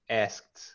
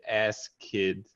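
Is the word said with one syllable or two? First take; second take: one; two. First: The ending is a single T sound. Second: The ending is a separate syllable. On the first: The speaker calls it right. "It's a T sound" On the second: The speaker calls it wrong. "before you said ass kid. Don't pronounce the E on the E D"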